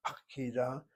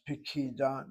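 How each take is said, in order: First: "pakida" with a full "ah" in the first syllable; "pakida" opening on a clear, open "pah"; full first vowel. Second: "pikida" with a short, reduced first vowel; "pikida" opening on a quick, weak "pi". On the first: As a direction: say "pakida", keeping the opening "pa" unreduced. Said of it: "not pakida". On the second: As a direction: say "pikida", first syllable shrunk to a brief schwa. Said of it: "your text has pikida, not pakida". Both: Shown as a demonstration.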